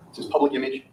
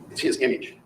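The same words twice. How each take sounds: First: PUBLIC picked out as the key word; stress on PUBLIC. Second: Said in the usual way. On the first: Real, not acted. Lawyer corrects himself about the image, stressing "public". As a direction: lean on "public" to sharpen the point.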